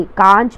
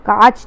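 First: "कांच" said as kaanch with a nasal; correct nasal. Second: "कांच" said as plain kaach; wrong, without nasal. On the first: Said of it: "कांच पढ़ते हैं". ("कांच" अनुनासिक के साथ) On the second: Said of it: "कांच नहीं पढ़ते". ("कांच" बिना अनुनासिक के) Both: Shown as a demonstration.

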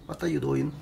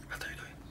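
First: Said in the usual way. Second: Breathy whisper to the cat. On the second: Real, not acted. Owner whispering to the cat hiding in a box, whisper. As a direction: sneak up with a hushed whisper.

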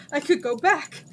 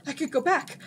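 First: Louder, higher delighted cry; joyful shout. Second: Brightening, a bit higher; the idea dawns with joy; excited realization. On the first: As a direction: repeat it, overjoyed. Jin repeats in joy. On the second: Jin realizes escape. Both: A narrator's reading.

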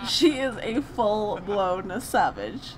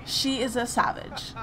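First: "She is a full-blown savage" drawn out slowly, each word weighed; slow emphatic verdict. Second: Said in the usual way. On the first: Shown as a demonstration. Streamer adds a slow emphatic verdict on Penny. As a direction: lay it down slow and heavy. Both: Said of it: "I had to add that".

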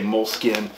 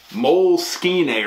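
First: Said in the usual way. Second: Frou-frou "Moleskine", mole-skee-nay with extra syllable; frou-frou pronunciation. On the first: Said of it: "I just say Moleskine". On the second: Shown as a demonstration. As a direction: say "Moleskine" fancily, ending in an "-ay" sound. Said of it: "there's a frou-frou way people say it".

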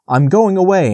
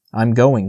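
First: Firm answer. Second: Firm resolve. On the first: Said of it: "answered Bambi". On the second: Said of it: "he said". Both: A narrator's reading.

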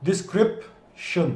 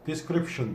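First: "Description" slowed down, weight on "-crip-"; slow stress demo. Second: "Description" said quickly and softly, weight on "-crip-"; quick stress at a soft level. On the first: Teacher slowing down for the class, slow stress on CRIP. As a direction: draw it out, de-SCRIP-tion. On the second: Teacher repeating quickly for the class, stress on CRIP. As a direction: toss it off quickly, de-SCRIP-tion. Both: Shown as a demonstration. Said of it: "crip'te arkadaşlar vurgu".

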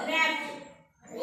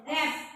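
First: Slow model word. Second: Said in the usual way. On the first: Shown as a demonstration. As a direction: stretch the word out slowly. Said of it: "आणि टीचा ट". (रॅप्ट सावकाश उच्चार)

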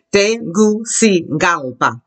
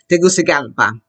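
First: "Tegucigalpa" very slowly, syllable by syllable; slow modelling. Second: Said in the usual way. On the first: Shown as a demonstration. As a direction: break it up as te-goo-see-GAL-pa for "Tegucigalpa". Models a hard name slowly.

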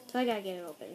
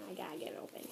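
First: Said in the usual way. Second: Muttered under the breath, much softer; softly murmured aside while opening; half-whispered. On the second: Real, not acted. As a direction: whisper it to yourself while fiddling. Struggling to open envelope.

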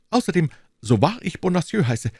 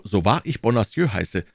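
First: High, fussy voice of the timid landlord; anxious little burgher. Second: Said in the usual way. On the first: Acted. Bonacieux explaining to D'Artagnan, high and anxious. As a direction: play the nervous shopkeeper, pitched well up. Bonacieux swears by his name.

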